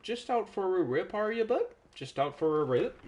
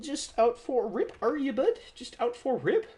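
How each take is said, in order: First: Higher Aussie teasing taunt; teasing bogan voice. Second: Much higher, louder cartoon squeak; squeaky teasing. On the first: Pretend. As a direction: needle him like a larrikin mate. Teasing Simon again. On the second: Player teasing Simon again, high squeaky cartoon voice. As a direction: squeal the tease like a chipmunk. Repeats tease in new voice.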